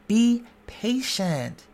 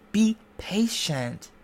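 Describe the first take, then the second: No difference in how they are said.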